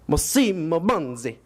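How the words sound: The name is said in an Italian accent. The speaker calls it right.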